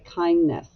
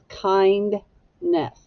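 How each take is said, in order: First: The D sound in the middle is dropped. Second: The D sound in the middle is pronounced. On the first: This is how it is usually said in everyday speech. "we often don't pronounce the D when we're speaking. We just say kindness" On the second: This shows how the word is actually built and spelled. "but it's kindness"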